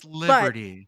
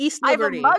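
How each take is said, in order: First: The name is clipped into one run-together word. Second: The name is said in full as two words. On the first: It marks the speaker as a local Pittsburgh native. "that is like deep, deep Yinzer" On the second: It is the standard form of the name. "But East Liberty is acceptable"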